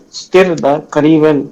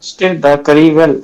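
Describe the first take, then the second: The two takes are said the same way.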